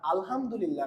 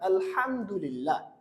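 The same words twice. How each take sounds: First: The h is an open, plain h sound. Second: The h is a hissing, breathy throat sound. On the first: The speaker calls it wrong. "না আলহামদুলিল্লাহ না" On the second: The speaker calls it right. "এটা হলো ছোট হা"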